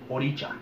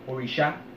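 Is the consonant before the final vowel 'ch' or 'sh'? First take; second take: ch; sh. First: The middle consonant is a sharp 'ch' sound. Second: The middle consonant is a soft 'sh' sound. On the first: This is the form used in Spanish-speaking Lukumi. "For Lukumi, for us in Spanish, how it got translated" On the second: This is the original Yoruba form. "in Yoruba"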